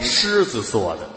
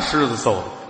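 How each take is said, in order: First: The third syllable is pronounced zuo. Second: The third syllable is pronounced zou. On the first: The speaker calls it right. "做的不就是揍的吗" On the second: The speaker calls it wrong. "谁爷爷是狮子揍的呀"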